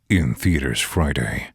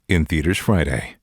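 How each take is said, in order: First: It is voiced in a horror trailer tone. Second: It is voiced in a comedy trailer tone. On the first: The film is a horror movie. "a horror" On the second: The film is a comedy. "Now comedy"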